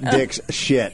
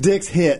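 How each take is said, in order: First: The name is split as dick plus shit. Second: The name is split as dicks plus hit. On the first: The speaker calls it wrong. "not Dick's Shit" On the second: The speaker calls it right. "It's Dick's Hit"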